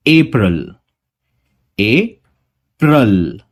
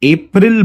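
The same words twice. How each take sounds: First: अप्रैल with a light unstressed schwa; correct schwa. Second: अप्रैल with a clear full vowel, the common mistake; wrong way, full vowel. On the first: Teacher modelling the correct pronunciation slowly. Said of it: "वहां पे हमें अ लगाना है बस". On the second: Teacher demonstrating the common mistake, full vowel. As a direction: say अप्रैल the wrong way, fully stressed. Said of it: "काफी लोग इसे अप्रैल बोलते हैं". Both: Shown as a demonstration.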